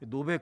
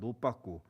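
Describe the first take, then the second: First: It ends on a short, clipped final consonant. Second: It has a tense 'pp' and an added final vowel.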